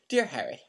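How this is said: It is read in a put-on British accent.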